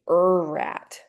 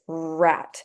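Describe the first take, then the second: First: An extra uh vowel comes before the r. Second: The r starts directly with no vowel before. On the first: The speaker calls it wrong. "we do not say er rat" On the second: The speaker calls it right. "It's rat"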